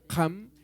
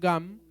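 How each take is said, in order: First: The first sound is a raspy throat sound. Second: The first sound is not a raspy throat sound. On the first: "La Q en quechua, recuerden que es raspada, en el caso del quechua huaylas, que es el que hablamos en marca" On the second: "En la zona de Conchucos pronuncian"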